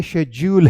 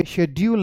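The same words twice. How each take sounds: First: शेड्यूल said "SHEJ-yool", slowly; correct j sound. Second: शेड्यूल said "shed-yool" with a d; wrong d sound. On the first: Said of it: "ये शेड्यूल है". (शेड्यूल को "शेज्यूल" बोलें) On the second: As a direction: say शेड्यूल with a hard d. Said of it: "ये शेड्यूल नहीं है". (शेड्यूल में "ड" की आवाज़) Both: Shown as a demonstration.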